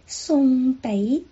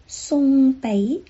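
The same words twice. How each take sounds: First: The second syllable ends with the lips open. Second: The same.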